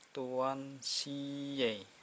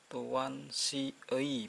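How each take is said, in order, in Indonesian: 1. Vokal akhirnya adalah e biasa. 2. Vokal akhirnya adalah ui meluncur. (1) "berubah jadi e" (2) "bukan tuan si ei"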